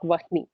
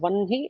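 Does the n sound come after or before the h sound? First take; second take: after; before. First: The h sound comes before the n sound. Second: The n sound comes before the h sound. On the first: The speaker calls it wrong. "not Vahni" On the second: The speaker calls it right. "it is supposed to be pronounced as Vanhi"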